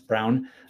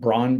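First: The name rhymes with 'brown'. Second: The name rhymes with 'lawn'. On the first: This is how the name is really said. The speaker calls it right. "but it's Brown" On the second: This is how most people say the name. The speaker calls it wrong. "Most people pronounce it Braun"

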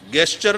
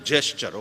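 First: The word begins with a hard g sound. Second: The word begins with a j sound. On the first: The speaker calls it wrong. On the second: The speaker calls it right.

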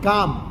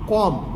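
First: The first vowel is an open 'aa' sound. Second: The first vowel is an open 'o' sound. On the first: This is the standard form. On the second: This is the Charotar dialect form.

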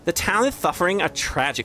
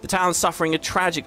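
First: It is read in a lisping valley-girl voice. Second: It is read in a plain natural voice.

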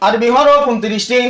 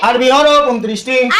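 No difference in how they are said.

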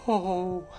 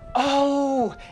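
First: It sounds sad. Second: It sounds happy.

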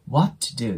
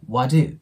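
First: The t at the end of what is released. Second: The t at the end of what is silent. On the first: The speaker calls it wrong. "what do ではなく" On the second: The speaker calls it right. "次に母音が来ないときは音が消えます"

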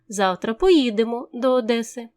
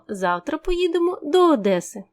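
First: The emphasis falls on the word поїдемо. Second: The emphasis falls on the word Одеси. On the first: It answers how the trip happens. "у який спосіб завтра дістанемося до Одеси" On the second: It answers where the trip goes. "куди ми поїдемо завтра"

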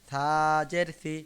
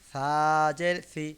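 Both takes have the same delivery.

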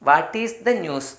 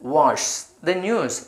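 First: Each word is said fully and separately. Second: Said quickly, with "what is" contracted.

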